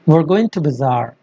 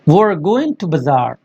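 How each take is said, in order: First: 'We are' is run together into one syllable. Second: The same.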